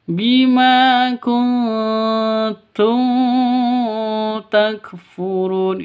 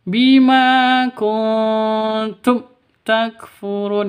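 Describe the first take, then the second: First: The 'm' of kuntum is drawn out long. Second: The 'm' of kuntum is cut off abruptly. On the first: "itu juga sah, salah" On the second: "itu salah"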